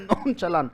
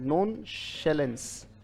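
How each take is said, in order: First: The second part begins with a 'ch' sound. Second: The second part begins with an 'sh' sound. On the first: "कुछ लोग इसको नॉन चलान्स कहते हैं" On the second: "पर ये उच्चारण इसका शैलेन"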